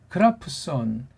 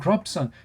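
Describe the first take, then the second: First: The p is released with a short vowel after it. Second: The p is closed off with no vowel after it. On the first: This is how speakers of Western languages say it. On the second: This is how Korean speakers say it.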